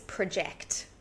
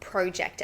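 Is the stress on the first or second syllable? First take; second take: second; first. First: The stress is on the second syllable. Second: The stress is on the first syllable. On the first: It is used as a verb. "Verb is project. So the stress changes" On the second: It is used as a noun. "project as a noun"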